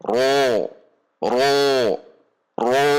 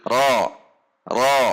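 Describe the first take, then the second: First: Wrong drawn-out "ro" with rounded lips; closed, rounded ro. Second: "ro" with an open mouth, unrounded lips. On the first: Teacher shows what not to read, a rounded "ro". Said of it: "tidak dibaca dengan membulatkan bibir". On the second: Teacher corrects to an open "ro". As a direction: open up "ro", only the tongue root raised. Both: Shown as a demonstration.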